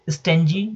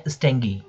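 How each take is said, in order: First: स्टेंजी with g as "j"; soft g. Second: स्टेंगी with g as in "go"; hard g. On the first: Teacher offering students two options, स्टेंजी with a soft j sound. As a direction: say स्टेंजी as "sten-jee". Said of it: "जी को जॉ कहते हैं". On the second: Teacher offering students two options, स्टेंगी with a hard g sound. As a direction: say स्टेंगी as "steng-gee". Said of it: "जी करते हैं कई लोग". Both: Shown as a demonstration.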